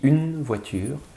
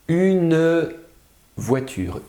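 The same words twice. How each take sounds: First: The final vowel of 'une' is not pronounced. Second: The final vowel of 'une' is clearly pronounced. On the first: This is ordinary everyday speech. "Quand je parle normalement, je ne le prononce pas" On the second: It helps listeners hear the silent letter. "je vais exagérer un peu pour qu'on entende la dernière lettre qui est muette"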